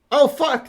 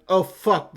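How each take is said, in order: First: Higher, louder "Oh, fuck"; startled cry of "Oh, fuck" on seeing him; startled outburst. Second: Said in the usual way. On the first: Real, not acted. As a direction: blurt "Oh, fuck" in shock. Second, bigger reaction.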